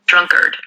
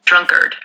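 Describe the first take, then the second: First: It is said in a drawn-out American accent. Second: It is said in a drawn-out American accent.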